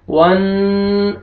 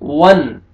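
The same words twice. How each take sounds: First: वन with the N held long in the nose; nasalised noon. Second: वन short, with a clean unheld N; clear quick noon. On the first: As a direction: wrongly hum on the N of वन. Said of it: "ऐसे नहीं पढ़ेंगे". (वन का नून नाक में खींचकर) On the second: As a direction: end वन promptly without humming. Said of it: "जल्दी पढ़ना है आपने". (वन जल्दी, नून साफ़) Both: Shown as a demonstration.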